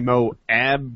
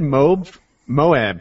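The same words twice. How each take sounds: First: The 'ab' part is clearly sounded out. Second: The 'ab' part is not clearly sounded out. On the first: The speaker calls it right. "I needed to say Moab, more A-B" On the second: The speaker calls it wrong. "I said Moab for a while"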